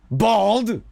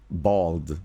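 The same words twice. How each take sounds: First: Loud, high yell of one word; character shout. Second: Said in the usual way. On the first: Acted. Streamer showing how his own voice sneaks into a character, shouted. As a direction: belt it out, pitch jumping way up.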